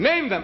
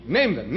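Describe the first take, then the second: First: Higher insistent repeat. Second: Said in the usual way. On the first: Shown as a demonstration.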